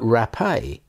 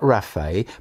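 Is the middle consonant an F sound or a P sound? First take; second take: P; F. First: The middle consonant is a hard P sound. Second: The middle consonant is a soft F sound. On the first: A human healer or physician. The speaker calls it right. "but raphe, the pei having become hard" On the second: The Lord who heals. The speaker calls it wrong. "not raphe"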